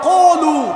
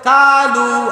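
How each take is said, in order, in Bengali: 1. প্রথম ব্যঞ্জনটি মোটা ও ভারী। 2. প্রথম ব্যঞ্জনটি পাতলা ও চিকন। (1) "বলিষ্ঠ করে পড়তে হয়" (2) "এটা কালু কে বলেছে?"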